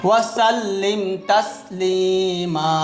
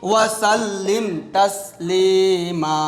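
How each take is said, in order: No difference in how they are said.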